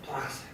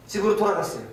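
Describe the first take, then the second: First: "돌아갔어요" dropped to a soft, much quieter voice; hushed answer. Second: Said in the usual way. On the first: Shown as a demonstration. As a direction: answer softly with "돌아갔어요", letting it fade. ("돌아갔어요"를 훨씬 조용하게 툭 떨어뜨리듯) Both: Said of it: "어떻게 했어요?".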